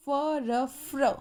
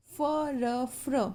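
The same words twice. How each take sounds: The two takes are said the same way.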